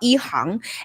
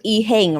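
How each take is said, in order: First: The name is said with a Chinese-style pronunciation. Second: The name is said with an English-style pronunciation. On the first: The speaker calls it right. "actually in Chinese it would be called Yi Hang" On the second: The speaker calls it wrong. "we would pronounce it Yi Heng"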